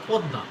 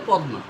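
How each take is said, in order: First: "পদ্মা" said as pod-da, silent m; doubled consonant. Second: "পদ্মা" said as pod-ma, second consonant sounded separately; spelling pronunciation. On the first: Teacher correcting a common misreading, "পদ্মা" as pod-da. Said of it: "কিন্তু পদ্মা না". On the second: Teacher showing learners the common misreading, "পদ্মা" as pod-ma. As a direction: say "পদ্মা" letter by letter, pod-ma, undoubled. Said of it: "অনেকে পড়ে পদ্মা". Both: Shown as a demonstration.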